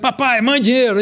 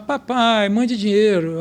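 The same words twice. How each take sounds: First: It is said in an irritated, weary tone. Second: It is said in a soft, tender tone. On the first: The child is always asking for money. "pai, que vai ficar vive pedindo dinheiro" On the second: The child is missed and cared for. "a mãe lê como? Ah"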